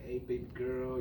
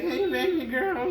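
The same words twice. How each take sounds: First: It is said in a smooth, confident voice. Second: It is said in an awkward, unflattering voice.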